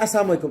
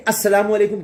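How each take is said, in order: First: Salaam clipped to "as-saam", dropping the "la" in "السلام"; swallowed salaam. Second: Said in the usual way. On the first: Retold or imitated. Anchor showing people's wrong greeting, "السلام" missing its middle syllable. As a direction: say "السلام علیکم" slurred as "assaam alekum". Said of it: "لوگ کہتے ہیں". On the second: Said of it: "سلام بھی صحیح طرح کر لیں".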